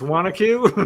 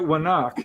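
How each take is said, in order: First: The name ends with a full 'acue' ending. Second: The name ends short, with a clipped 'ak' sound. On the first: This is the correct local pronunciation. The speaker calls it right. "It's Wanacue" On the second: This is how the speaker used to say it. The speaker calls it wrong. "I always pronounced it Wanak"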